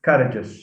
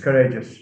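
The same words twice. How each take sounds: First: The stress is on the first syllable. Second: The stress is on the second syllable. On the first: The speaker calls it wrong. "mispronounce it as uh, as courageous" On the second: The speaker calls it right. "It's courageous"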